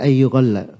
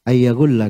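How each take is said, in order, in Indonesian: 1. Vokal setelah ya itu bunyi u. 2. Vokal setelah ya itu bunyi a. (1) "tidak di fathah ya-nya tapi di dhamma" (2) "di fathah ya-nya"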